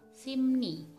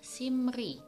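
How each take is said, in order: First: The second syllable begins with an n sound. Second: The second syllable begins with an r sound. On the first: The speaker calls it right. "tapi yang benar dibaca simni" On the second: The speaker calls it wrong. "harusnya dibaca simri"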